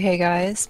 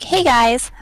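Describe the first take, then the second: First: It is said at a calm, normal volume. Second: It is said with a raised, loud voice. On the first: "did say hey guys" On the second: "I didn't raise my voice like"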